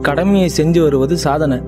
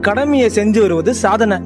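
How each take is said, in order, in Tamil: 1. சாதாரண உரை போல, உணர்ச்சியில்லாமல் படிக்கப்படுகிறது. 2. உணர்ச்சியோடும் நாடக பாணி ஏற்ற இறக்கத்தோடும் பேசப்படுகிறது. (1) "ஒரு எழுத்தா இருக்குது" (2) "உள்ள உணர்ந்து பேசுறது"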